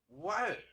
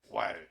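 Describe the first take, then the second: First: It sounds like a puzzled question. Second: It sounds like a plain exclamation.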